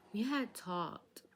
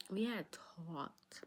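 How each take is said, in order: First: Dramatic slow. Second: Very slow breathy whisper; hushed slow aside; whispered slowly. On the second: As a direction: drop to a secretive whisper. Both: Retold or imitated.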